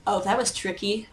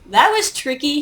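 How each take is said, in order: First: Softer, murmured to himself; a soft aside, half under the breath; quiet first take. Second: Higher and louder, impressed; emphatic repeat. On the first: Caster reacts, then repeats. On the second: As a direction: punch it out for the audience. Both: Real, not acted.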